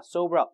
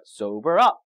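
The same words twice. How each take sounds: First: Said in the usual way. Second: "up" stressed, louder and rising. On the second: Shown as a demonstration. Teacher modelling the word for students, stress on "up". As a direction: hit the final word "up" hard. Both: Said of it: "강세 뒤에 주세요".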